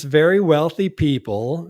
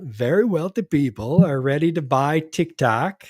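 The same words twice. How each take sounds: First: Said in the usual way. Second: Lightly voiced, wobbly attempt at a politician; a hint of a badly faked presidential voice, pitch swinging up and down; horrible Trump impersonation. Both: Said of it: "That was a horrible Trump impersonation".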